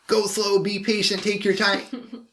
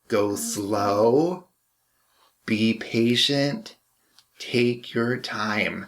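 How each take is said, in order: First: It is said in a fast, energetic voice. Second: It is said in a calm, slow voice.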